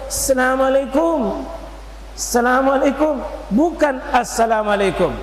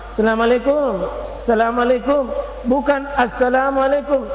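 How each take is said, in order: Both takes have the same delivery.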